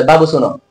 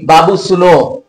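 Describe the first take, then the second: First: Said in the usual way. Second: "बाबू सुनो" slowly, with the last vowel of "सुनो" held long; drawn-out call. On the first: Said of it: "तो ऐसा नहीं ना आप बोलते". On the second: Shown as a demonstration. Teacher to pupils, showing a calling voice with a held vowel. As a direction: call out "बाबू सुनो" stretching "सुनो" to three beats. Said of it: "जैसे कि आप लोग कभी बोलते होंगे".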